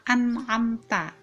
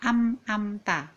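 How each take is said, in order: First: An n sound comes before 'amta'. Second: An m sound comes before 'amta'. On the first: The speaker calls it right. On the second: The speaker calls it wrong.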